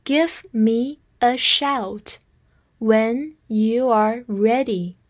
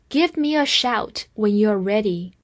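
First: Slow, phrase-by-phrase reading. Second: Said in the usual way. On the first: Shown as a demonstration. Teacher reading slowly for students to repeat. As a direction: read it slowly in two chunks. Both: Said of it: "我们慢慢来说".

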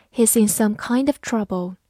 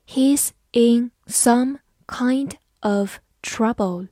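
First: Said in the usual way. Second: Slow, word-by-word sentence; slow reading. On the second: Shown as a demonstration. Teacher reading a sentence slowly for students to copy. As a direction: read it slowly so learners can follow. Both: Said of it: "慢慢来读".

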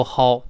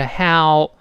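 First: “how” without the open ah, like hou; mispronounced diphthong. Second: “how” with ah gliding into o; correct diphthong. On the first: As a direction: close “how” up into a rounded hou. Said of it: "不要读how啊". (“how”误读成“齁”，没有“啊”) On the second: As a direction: open on ah in “how”, then slide to o. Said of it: "所以是how". (“how”由“啊”滑到“o”) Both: Shown as a demonstration.

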